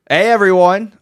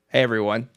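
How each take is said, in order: First: It is shouted very loudly into the mic. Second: It is said quietly with flat, low energy.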